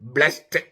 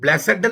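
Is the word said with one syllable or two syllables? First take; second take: one syllable; two syllables. First: The word is said with one syllable. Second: The word is said with two syllables. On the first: "പക്ഷെ ഉച്ചരിക്കുന്നത് ബ്ലെസ്ഡ് എന്നാണ്" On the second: "ഇംഗ്ലീഷില് ബ്ലെസഡ് എന്നാണ് എഴുതണേ"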